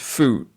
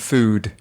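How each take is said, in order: First: The final d sound is dropped. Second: The final d sound is clearly heard. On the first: The speaker calls it wrong. "she says food" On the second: The speaker calls it right. "rather than food. Can you hear the d at the end of food?"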